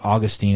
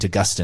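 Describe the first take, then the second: First: The name is pronounced the American way. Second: The name is pronounced the Australian way. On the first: "Americans say St" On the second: "Australians say St"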